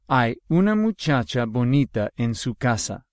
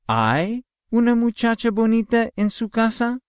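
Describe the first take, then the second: First: It is said with statement intonation. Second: It is said with question intonation. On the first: There is a pretty girl in her house. "That is a statement" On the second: Is there a pretty girl in her house? "I am asking a question"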